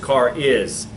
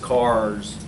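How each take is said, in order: First: The S begins a separate second syllable. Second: The S closes the single syllable. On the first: "If you do car initial S" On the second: "If you do car final S"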